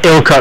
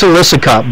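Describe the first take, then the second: First: The name begins with the short sound 'ill'. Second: The name begins with the longer sound 'illicit'. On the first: The speaker calls it wrong. "I'm going to say it wrong" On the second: The speaker calls it right. "Yes, it's"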